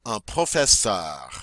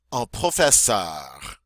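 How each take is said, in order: First: "Un professeur" repeated clearly; French repeat. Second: "un professeur" said slowly; slow French model word. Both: Shown as a demonstration. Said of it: "Go on".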